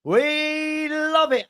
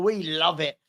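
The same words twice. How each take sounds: First: Very high, stretched-out WE; drawn-out gleeful crow; gleeful celebration. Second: Said in the usual way. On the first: Real, not acted. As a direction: hold WE long and high, then land on love it. Drawn-out celebration of caught troll.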